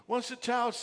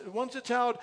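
No difference in how they are said.

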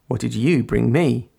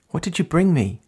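First: Gently teasing. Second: Higher, eager question; excited. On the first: Narrator answering the girl's question, gently teasing. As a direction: throw the question back playfully. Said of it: "I teased gently". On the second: Girl greeting her visitor on the roof, excited. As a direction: ask with excited curiosity. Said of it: "she asked excitedly". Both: A narrator's reading.

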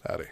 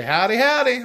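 First: Understated, casual howdy; quiet, calm, nonchalant. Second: High, loud joking howdy; jokingly. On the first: Greeting a passing stranger, nonchalant and quiet. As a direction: toss it off calmly and quietly. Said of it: "very nonchalant, very quiet and calm". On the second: Showing his co-host the silly version, jokingly. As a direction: call it out in jest, pitched up and louder. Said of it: "sometimes I do jokingly say". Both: Shown as a demonstration.

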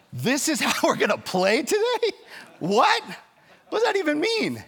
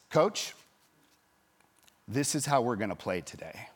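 First: Much higher, louder, stunned disbelief; incredulous outrage. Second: Said in the usual way. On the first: Retold or imitated. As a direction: repeat the ruling back in outraged disbelief. Coach's incredulous reaction to ruling. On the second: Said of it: "and he says".

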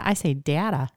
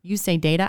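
First: Short a in "data", as in "cat"; short-a pronunciation. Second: Long a in "data", as in "day"; long-a pronunciation. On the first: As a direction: say "data" as DAT-uh. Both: Shown as a demonstration.

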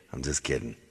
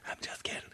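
First: Said in the usual way. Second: Very soft, voiceless whisper; whispered disclaimer. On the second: Real, not acted. Husband takes back joke about wife, whispering. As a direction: whisper it as a confidential retraction.

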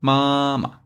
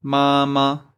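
First: "mama" with the second syllable short and light; "mama", first syllable high and level, second one clipped and light; neutral tone. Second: "mama" with both syllables given full first tone; both syllables of "mama" held high and level; wrong tone. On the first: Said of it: "The second pinyin is short and light". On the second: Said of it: "So instead of". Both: Shown as a demonstration.

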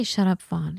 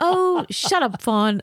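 First: Said in the usual way. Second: Put-on high, drawn-out French-accented teasing; Martine. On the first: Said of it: "And she didn't say". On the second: Friend brushing off her worries, high mock French accent. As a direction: playfully scold in an imitated French accent, pitched way up. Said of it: "with her French accent".

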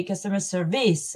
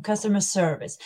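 First: "customer service" ending in a heavy "VEES"; "customer service" with the final syllable stressed; Spanish-speaker mispronunciation. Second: "Customer service" with SER strong and "vice" light; correct stress on SERvice. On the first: Retold or imitated. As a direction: imitate a Spanish learner saying "service" as ser-VEES. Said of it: "Spanish would say". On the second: Shown as a demonstration. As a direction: model "Customer service" stressed on the start of the second word. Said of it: "Very useful".

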